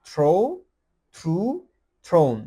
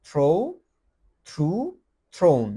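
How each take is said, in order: The two takes are said the same way.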